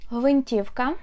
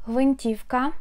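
Both takes have the same delivery.

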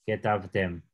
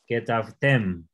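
First: Said in the usual way. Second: Que tav tem, said slowly with the weight on tem; stress on the final syllable. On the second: Shown as a demonstration. Teacher showing the student the stress falls on tem. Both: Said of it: "fuerza al final".

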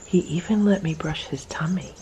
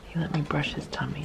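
First: Breathy whisper so the cat stays calm; hushed whisper about the tummy. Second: Very soft murmur, much softer; a near-silent voiced murmur; barely voiced murmur. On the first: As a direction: whisper it over the purring cat. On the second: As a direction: murmur it almost to yourself. Repeated even softer. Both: Real, not acted.

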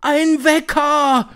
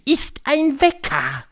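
First: High, loud, drawn-out screech; slow, shrieked exclamation; shrieking. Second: High, slow, drawn-out reveal; triumphant high witch voice. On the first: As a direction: screech it back in amazement. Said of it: "kreischten sie". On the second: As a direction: proudly unveil the secret, word by word. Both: A narrator's reading.

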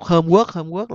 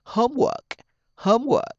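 First: Homework with the second syllable rising; inaccurate learner pronunciation. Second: Homework with HOME pitched high; stress on first syllable. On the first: Retold or imitated. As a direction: imitate learners tipping homework up on WORK. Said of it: "là nó chưa chính xác nha". (đọc sai homework, lên giọng âm sau) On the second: Shown as a demonstration. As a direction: hit HOME high, lighten work in homework. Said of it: "nó phải nhấn vần thứ nhất". (nhấn cao âm đầu homework)

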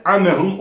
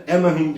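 First: "amehum" opened with squeezed Arabic ع; throat ayın. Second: "emehum" with a plain front e; dropped ayın. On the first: Quran teacher pointing out the letter, ayn sounded. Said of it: "ayını mutlaka çıkartmamız lazım". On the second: Quran teacher showing the slip, ayn lost. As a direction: begin "emehum" lightly, no throat sound. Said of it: "diye geçiliyor". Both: Shown as a demonstration.

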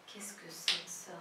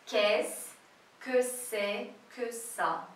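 First: "Qu'est-ce que c'est que ça" run together, softly; joined-up, low and soft "Qu'est-ce que c'est que ça"; quick film intonation. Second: "Qu'est-ce que c'est que ça" slowly, broken into chunks; slow, separated "Qu'est-ce que c'est que ça"; syllable-by-syllable demo. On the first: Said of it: "a entonação dele e como fala rápido". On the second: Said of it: "olha só". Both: Shown as a demonstration.

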